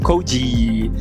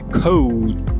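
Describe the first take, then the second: First: It ends with an extra vowel after the D. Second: It ends on a soft, barely released D. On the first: The speaker calls it wrong. "e não code" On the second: The speaker calls it right. "Você quase nem fala esse D no final"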